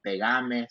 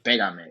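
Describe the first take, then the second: First: "pegame" stressed on the middle syllable, pe-GA-me; voseo stress. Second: "pégame" stressed on the first syllable, PE-ga-me; standard tú stress. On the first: Honduran speaker showing how we say it, stress on GA in "pegame". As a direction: lean on GA in "pegame". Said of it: "we say stuff like". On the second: Contrasting the form that sounds unnatural to her, stress on PE in "pégame". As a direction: put the weight on PE in "pégame". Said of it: "pégame doesn't sound right". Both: Shown as a demonstration.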